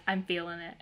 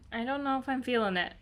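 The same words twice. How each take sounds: First: Settled, everyday-pitched quote; won over. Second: Higher-pitched, quick, doubtful quote; unsure. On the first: Reader reenacting her roller coaster reaction to the book, won over. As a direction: drop into easy acceptance. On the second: Reader reenacting her roller coaster reaction to the book, unsure. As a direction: voice your wavering up high. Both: Retold or imitated. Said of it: "kind of a roller coaster".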